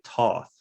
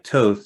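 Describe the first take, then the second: First: The vowel does not rhyme with oath. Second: The vowel rhymes with oath. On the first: This is how locals say the name. "whereas I think we say Toth, you know, in New Orleans" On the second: This is how the name is given when looked up. "like Toth, like oath"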